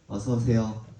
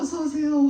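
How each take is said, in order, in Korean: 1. 이 인사는 밋밋하고 형식적으로 들려요. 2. 이 인사는 따뜻하고 정말 반가워하는 느낌으로 들려요. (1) "이게 아니라" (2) "진짜 진짜"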